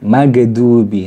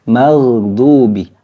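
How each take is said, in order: First: The gh sound is stopped and bounces. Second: The gh sound flows on continuously. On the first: The speaker calls it wrong. "Biasanya kita tidak mengalirkan suaranya. Oh, ditahan biasanya" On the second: The speaker calls it right. "Kalau ngalir seperti apa?"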